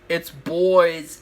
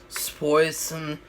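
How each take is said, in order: First: The word ending is dropped, sounding like 'boys'. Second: The word ending is fully and clearly pronounced. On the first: The speaker calls it wrong. "you don't say it's boys. That's what this bitch says" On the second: The speaker calls it right. "even if you tried as much as you could to, like, just go, like, it's poison"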